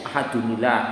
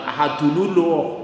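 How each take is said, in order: First: The linking vowel before 'llah' is 'i'. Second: The linking vowel before 'llah' is 'u'. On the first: The speaker calls it right. "kasroh paling ringan" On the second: The speaker calls it wrong. "bukan ahadunullah"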